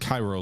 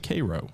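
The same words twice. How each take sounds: First: It is pronounced like the Egyptian city. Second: It is pronounced unlike the Egyptian city. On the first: This is the speaker's own habitual pronunciation. "I always pronounce it Cairo like Egypt" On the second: This is the pronunciation used in Civil War audiobooks. "they always say Cairo"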